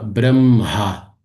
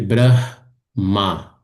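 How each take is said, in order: First: The h sound comes after the m. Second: The h sound comes before the m. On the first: "enfatizar esse som do H indo para depois do M, assim, ó" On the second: "ao invés de"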